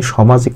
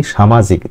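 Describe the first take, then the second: First: সামাজিক said with a short rounded "sho" first syllable; সামাজিক starting "sho-", without the aakar; teacher shows the mistaken সামাজিক; wrong pronunciation. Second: সামাজিক said with an open long "sha" first syllable; সামাজিক starting "sha-", with the added aakar; teacher models the correct সামাজিক; correct pronunciation. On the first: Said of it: "কথাটা কিন্তু ভুল হয়ে যাবে". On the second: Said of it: "সামাজিক আকার দিয়ে করতে হবে". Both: Shown as a demonstration.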